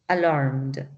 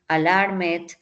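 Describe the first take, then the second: First: The ending is a plain d sound, no extra syllable. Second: The ending is pronounced as an extra 'id' syllable. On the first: The speaker calls it right. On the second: The speaker calls it wrong.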